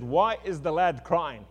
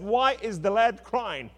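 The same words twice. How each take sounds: First: Slow, measured divine question; God asks Hagar why the boy cries, slow and measured; God asking gently. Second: Higher, slow, pressing repeat of the question; God presses Hagar, higher and insistent. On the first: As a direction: ask it slowly, like a patient God. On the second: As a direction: press harder the second time, slow and raised. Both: Acted.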